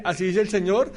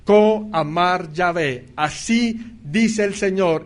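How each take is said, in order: First: Offhand false prophet. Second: Slow, weighty thus-says-the-Lord; drawn-out prophetic announcement, lightly voiced; solemn prophet proclamation. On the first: Retold or imitated. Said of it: "cuando el falso profeta dice". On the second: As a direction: proclaim it slowly like a true prophet. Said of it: "cuando el profeta decía".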